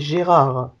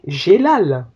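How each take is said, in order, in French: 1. Le nom se prononce avec des sons R. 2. Le nom se prononce avec des sons L. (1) "un prénom français, c'est Gérard" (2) "Ils l'ont trafiqué, Gélal"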